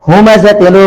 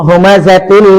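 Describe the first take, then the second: The two takes are said the same way.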